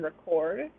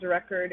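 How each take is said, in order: First: Verb "record", re-CORD; second "record" stressed on CORD; stress on second syllable. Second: Noun "record", REC-ord; first "record" stressed on REC; stress on first syllable. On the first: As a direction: say "record" with a reduced first syllable, strong second. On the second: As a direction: say "record" with a strong first syllable, reduced second. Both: Shown as a demonstration. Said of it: "only in tone or stress".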